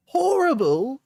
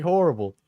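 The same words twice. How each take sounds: First: HORRIBLE very high in mock Cockney; attempted Cockney. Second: Said in the usual way. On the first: Streamer voicing the offended partner's comeback, mock Cockney. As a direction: throw "Horrible" back in a hammed-up high Cockney. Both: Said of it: "It's Cockney, I think".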